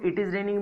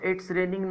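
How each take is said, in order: First: Both words 'it is' are said in full. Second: 'It is' is shortened to one syllable, 'it's'. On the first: "इट इज raining बोल लूं" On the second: "इसको इस तरह बोल सकता हूं इट्स raining no problem"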